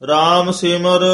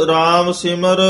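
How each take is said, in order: No difference in how they are said.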